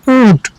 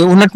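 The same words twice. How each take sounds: First: ऊँट as one syllable, "ũut"; correct nasal reading. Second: ऊनट in two syllables, "oo-nat"; wrong reading. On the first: Teacher answering how to read it, ऊँट in one nasal syllable. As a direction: nasalise the vowel of ऊँट, no separate n. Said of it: "यहाँ भी ये नून बुनना है". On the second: Teacher warning pupils off a misreading, ऊनट as "oo-nat". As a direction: say ऊनट with a full n and extra vowel. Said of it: "ऊनट नहीं पढ़ेंगे इसको". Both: Shown as a demonstration.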